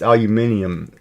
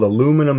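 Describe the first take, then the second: First: The word is said with five syllables, aluminium. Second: The word is said with four syllables, aluminum. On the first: This is the form used everywhere else. "in proper English" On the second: This is the form used in the West. "It's called aluminum in the West"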